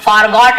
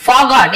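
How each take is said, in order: First: "forgot" with a sounded r; r fully pronounced. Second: "forgot" with the r left silent. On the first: Teacher showing the form to avoid, "forgot" with the r sounded. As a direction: say "forgot" as "for-got", r clearly heard. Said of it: "ऐसे नहीं बोलते". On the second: Teacher showing students how it is said, "forgot" without the r. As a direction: say "forgot" as "faw-got", no r. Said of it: "आर थोड़ा silent होता है". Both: Shown as a demonstration.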